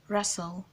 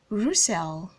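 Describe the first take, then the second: First: The second vowel is a weak schwa. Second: The second vowel is a full vowel. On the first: The speaker calls it right. "it makes the schwa sound, the uh sound" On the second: The speaker calls it wrong. "A lot of persons call this name Russell"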